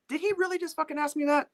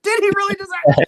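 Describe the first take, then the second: First: High, squeezed disbelief; incredulous inner voice. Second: Loud, very high mock-panicked disbelief; incredulous inner scream. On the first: Retold or imitated. Engineer asked his opinion by the guitarist, high incredulous inner voice. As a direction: think it in a high, stunned squeal. Stunned thought, acted in his head. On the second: Engineer panicking inwardly at the guitarist's question, loud incredulous squeal. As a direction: blow it up into a squealed shout. Same thought repeated, escalating.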